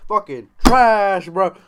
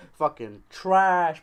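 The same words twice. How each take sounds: First: Slow, much louder and higher yell. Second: Slow, louder, higher rant; emphatic. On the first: Ranting about Dragon Ball, slow full yell. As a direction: bellow it out slowly. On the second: Ranting about Dragon Ball, slow louder emphatic. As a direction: drag out the insult louder. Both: Shown as a demonstration.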